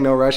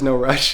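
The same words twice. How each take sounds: First: It is said in a plain, unaccented way. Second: It is said imitating a Thai accent. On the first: "instead of saying no rush" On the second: "his like Thai accent that he has"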